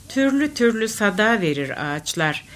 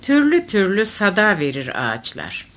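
Both takes have the same delivery.

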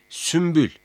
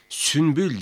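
First: "sümbül" with m before the b; assimilated M sound. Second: "Sünbül" with n before the b; wrong N sound. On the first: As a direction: say "sümbül" with m, not n. ("sümbül", m sesiyle) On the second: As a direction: say "Sünbül" with a clear n. ("Sünbül", n sesiyle) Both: Shown as a demonstration. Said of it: "Sünbül değil, sümbül".

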